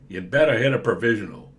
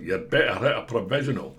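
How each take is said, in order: First: It is spoken in an American accent. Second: It is spoken in a Scottish accent. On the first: "I don't know why I made that voice American" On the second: "Or in Scotland"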